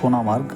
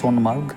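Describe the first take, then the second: First: The vowel after 'Son' is kept. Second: The vowel after 'Son' is dropped. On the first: This is the actual name. "Actually নামটা হচ্ছে গিয়ে সোনামার্গ" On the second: This is how it is often said. "অনেক সময় উচ্চারণ করা হয় সোনমার্গ"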